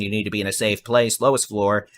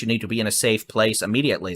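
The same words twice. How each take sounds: First: Deliberately slower, steady delivery; slowed down. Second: Fast auctioneer patter. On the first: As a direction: ease off the speed, spell it out. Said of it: "I'll try to slow it down". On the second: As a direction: rattle it off like an auctioneer. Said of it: "uh, auctioneer voice". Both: Real, not acted.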